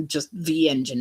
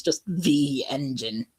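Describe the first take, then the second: First: "the" leaned on in "Just the engine"; single engine, stress the word "the". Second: "the" stretched and stressed in "just the engine". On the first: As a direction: hit "the" firmly and let it fall. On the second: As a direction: lean on "the" to mean the only one. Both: Shown as a demonstration. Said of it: "implying that that's a s-, a new character".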